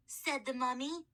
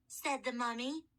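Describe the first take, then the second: No difference in how they are said.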